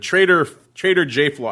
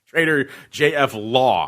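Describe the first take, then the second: First: The F is joined to 'law' as 'flaw'. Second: The F is said as a separate letter. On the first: The speaker calls it wrong. "it's not Trader J Flaw" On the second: The speaker calls it right. "that is the appropriate pronunciation"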